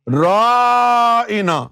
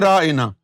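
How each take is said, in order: First: The word is drawn out with a stretched vowel. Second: The word is said short, without stretching. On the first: It means a mad person, as mockery. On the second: Please grant us concession and repeat it.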